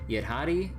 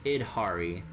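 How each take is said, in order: First: It begins with 'ya', stressing the 'hadi' part. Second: It begins with 'id', like 'id Software'. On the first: "they kind of emphasize the Hadi part" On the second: "just Idhari, like id Software"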